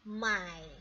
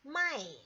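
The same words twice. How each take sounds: First: The word is said with the third tone. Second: The word is said with the fourth tone. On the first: It means to buy. "Tadi kan nada ketiga" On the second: It means to sell. "dia itu nada keempat"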